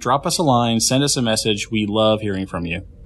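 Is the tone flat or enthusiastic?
flat. It is said flatly, without enthusiasm.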